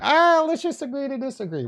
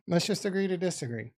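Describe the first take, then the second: First: Mock-breezy dismissal. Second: Said in the usual way. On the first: Real, not acted. Streamer brushes off a chat insult, high and breezy. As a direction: wave the viewer off with a sing-song brush-off.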